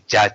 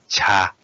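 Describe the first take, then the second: First: The first consonant is hard and voiced. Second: The first consonant is soft, low and long. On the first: The speaker calls it wrong. "don't say for the tea ja, ja, ja" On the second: The speaker calls it right. "So we say cha, cha, low and uh, soft"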